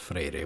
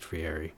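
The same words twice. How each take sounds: First: The name is said with a non-English pronunciation. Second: The name is said with an English-style pronunciation. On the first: "Also pronounced as Friere" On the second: "I'm using the anglicized Friere"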